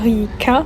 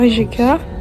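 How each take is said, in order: First: The j sounds like a y. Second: The j sounds like the French j. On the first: The speaker calls it right. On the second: The speaker calls it wrong.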